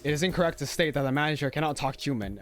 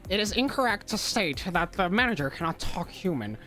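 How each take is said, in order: First: It is read in his normal voice. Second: It is read in a put-on nerdy voice.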